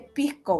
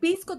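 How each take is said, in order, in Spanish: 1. El sonido de la s se debilita o se omite. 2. El sonido de la s se pronuncia claramente. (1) "si lo pronuncias en chileno, se dice pisco" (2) "que tú dices"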